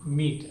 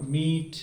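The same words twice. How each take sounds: First: Short vowel in मीट; छोटा उच्चारण. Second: मीट with a long drawn-out ee; लंबा उच्चारण. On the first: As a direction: say मीट briefly, without dragging the ee. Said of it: "ऐसे पढ़ना है". (मीट को छोटा, बिना खींचे) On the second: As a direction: stretch the vowel in मीट too long. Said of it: "लंबा नहीं होना चाहिए". (मीट को लंबा खींचकर) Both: Shown as a demonstration.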